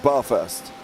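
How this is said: It is said with a London accent. The speaker calls it right. "I'm from London... So this to us is called Bathurst"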